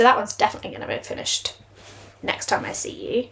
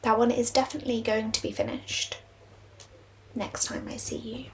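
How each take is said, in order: First: It is said fast. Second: It is said slowly.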